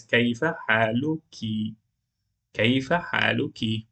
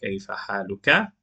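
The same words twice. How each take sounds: First: "كيف حالك" ending in -ki; feminine form. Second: "كيف حالك" ending in -ka; masculine form. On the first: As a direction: ask "كيف حالك" of a woman. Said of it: "Then she says". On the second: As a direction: ask "كيف حالك" of a man. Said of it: "We used to have it like". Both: Shown as a demonstration.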